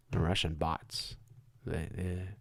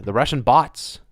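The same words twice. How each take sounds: First: Softer, lower repeat of The Russian bots; a hushed, sarcastic echo; mock undertone. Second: Said in the usual way. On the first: Real, not acted. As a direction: mutter it back mockingly.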